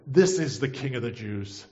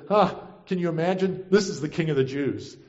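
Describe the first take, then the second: First: Said in the usual way. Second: Mildly mock-incredulous; a scoffing huh, then drop to a dry read. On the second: Roman government ridicules Jesus, mildly mocking. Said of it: "mocking both Jesus and the Jewish people".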